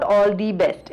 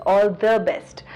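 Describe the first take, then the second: First: "the" said as thee in "all the best"; long ee on "the"; wrong the. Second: "the" said as thuh in "all the best"; short schwa on "the"; correct the. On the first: Retold or imitated. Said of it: "It's not all the best". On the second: Shown as a demonstration. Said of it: "It's all the best".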